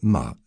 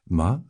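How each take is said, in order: First: The pitch falls sharply from high to low. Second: The pitch dips down and then rises. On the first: It means to scold. "la tonalité descendante" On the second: It means horse. "la tonalité modulée"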